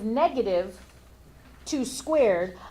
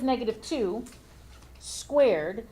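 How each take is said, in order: First: 'Two squared' is grouped together after 'negative'. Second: 'Negative two' is grouped together before 'squared'. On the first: Only the two is squared, then made negative. "I'm going to square the two first" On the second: The whole negative two is squared. "you're going to square negative two"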